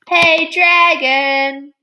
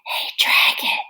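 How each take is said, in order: First: It is shouted very loudly. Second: It is whispered very softly.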